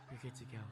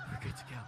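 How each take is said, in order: First: Dropped low and much softer, laughing; soft low echo with a chuckle; low aside. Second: Squeaky high, laughing reassurance; giggly sky-high reassurance; cheery nurse. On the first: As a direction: mutter it down to yourself. Same words, repeated. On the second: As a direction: chirp it up high like a breezy nurse. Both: Retold or imitated.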